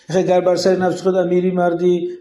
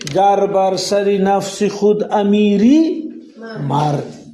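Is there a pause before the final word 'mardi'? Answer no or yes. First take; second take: no; yes. First: It is read straight through without a pause. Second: There is a pause before the final word. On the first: The line does not make sense this way. The speaker calls it wrong. "ایخ ایخ خواندن معنای نمیتید" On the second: If you master yourself, then you are a true man. The speaker calls it right. "ویرگول داره که ویرگول اگر نمونم ایروی معنی همجا توقف"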